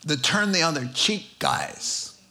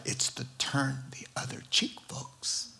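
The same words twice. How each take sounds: First: Said in the usual way. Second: "turn the other cheek" in a breathy voiceless whisper; hushed whisper. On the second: Real, not acted. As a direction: whisper the punchline to the room. Whispered punchline to congregation.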